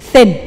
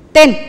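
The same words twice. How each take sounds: First: The th comes at once, with no t first. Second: The th comes late, after a t-like start. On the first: The speaker calls it right. "Harus bareng" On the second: The speaker calls it wrong. "jangan bilang gini. Thin. Itu telat"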